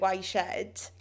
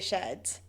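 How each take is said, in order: First: The first word sounds like 'why'. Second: The first word sounds like 'er'. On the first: The speaker calls it wrong. "It's like people calling it Y Shed" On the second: The speaker calls it right.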